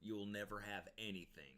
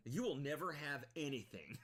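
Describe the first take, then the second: First: Said in the usual way. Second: Hammed-up threat, slightly higher; mock Karen threat. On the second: Streamer mocking the grandma's threat, lightly hammed. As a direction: quote it back with a bit more punch. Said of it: "that's a great quote".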